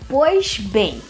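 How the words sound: It is said in a Carioca accent.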